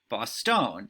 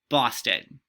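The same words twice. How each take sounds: First: The stress falls on an unexpected syllable. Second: The stress falls on the expected syllable. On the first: The speaker calls it wrong. "those are wrong, that those don't sound correct" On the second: The speaker calls it right. "It would tell you to say"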